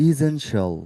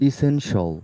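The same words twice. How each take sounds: No difference in how they are said.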